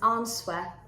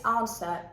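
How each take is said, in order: First: A W sound is pronounced after the first vowel. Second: No W sound is heard after the first vowel. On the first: The speaker calls it wrong. "answer being pronounced as answer" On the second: The speaker calls it right. "just as if it was absent"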